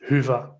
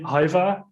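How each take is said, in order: First: The first vowel is a rounded front 'ü'. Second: The first vowel sounds like 'eye'. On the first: This is how Finnish speakers say it. "they pronounce it as Huva" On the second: This is how some Americans say it. "some Americans decided it should be Haiva"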